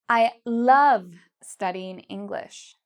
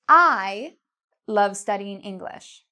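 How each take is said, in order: First: The word love is louder and longer. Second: The word I is louder and longer. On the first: The speaker loves it, not just likes it. "love is the part I'm saying louder and longer" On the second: The speaker loves it, unlike others. "If you said I, you're correct"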